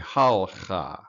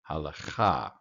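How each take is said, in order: First: No vowel is heard between the l and ch. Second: A short vowel is heard between the l and ch. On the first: The speaker calls it wrong. "your tendency is to end the syllable with the Shava, making it silent" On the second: The speaker calls it right. "it is vocal. So the correct pronunciation"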